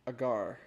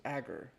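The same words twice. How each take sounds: First: "Agar" stressed on the second syllable; corrected pronunciation. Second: "agar" stressed on the first syllable; alternative pronunciation. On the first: Reader settling on a pronunciation, "Agar" as uh-GAR. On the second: Reader doubting the pronunciation, "agar" as AG-er. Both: Shown as a demonstration.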